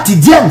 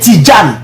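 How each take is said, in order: First: The middle consonant is a 'dy' sound. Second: The middle consonant is a 'j' sound. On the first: The speaker calls it wrong. "c'est même pas Tidiane" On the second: The speaker calls it right. "La vraie prononciation c'est Tidjane"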